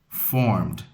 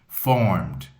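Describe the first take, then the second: Both takes have the same delivery.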